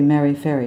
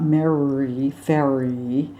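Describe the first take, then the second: First: The R sounds are light and brief. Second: The R sounds are heavy and drawn out. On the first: The speaker calls it right. "Same as you'd say" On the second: The speaker calls it wrong.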